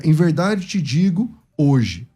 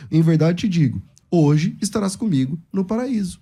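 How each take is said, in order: First: Slow, with "hoje" held and a pause after it; "Em verdade te digo hoje" as one slow block, then stop; comma after hoje. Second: "Em verdade te digo," then "hoje estarás comigo"; comma after digo. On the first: Mocking the other reading, slow, stopping after "hoje". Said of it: "de um jeito que eu nunca falei". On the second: Showing the usual reading of Jesus's words, pause after "digo". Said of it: "ele fala essa frase várias vezes". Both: Shown as a demonstration.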